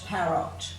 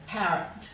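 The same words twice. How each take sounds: First: The last syllable has a full, clear vowel. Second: The last syllable has a weak schwa vowel. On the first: This way makes the spelling easier. "pronounce them as they should be pronounced" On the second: This is the everyday way people say it. "We tend to give it a schwat sound"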